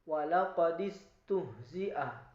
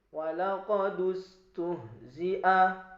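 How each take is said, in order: First: The vowel after 'walaqad' is an 'i' sound. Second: The vowel after 'walaqad' is a 'u' sound.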